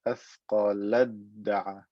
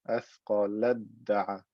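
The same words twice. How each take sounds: The two takes are said the same way.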